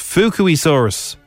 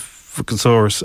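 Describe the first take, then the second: First: The second syllable sounds like 'kwee'. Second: The second syllable sounds like 'ka'. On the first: The speaker calls it right. "That's how you do pronounce it" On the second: The speaker calls it wrong. "What's a Fuchasaurus?"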